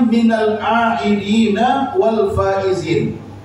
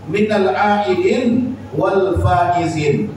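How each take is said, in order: First: The word after 'minal' ends in a vowel. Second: The word after 'minal' ends in a consonant. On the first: "Yang benar itu kalimatnya" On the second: "kalau mau kita sukunkan akhirnya"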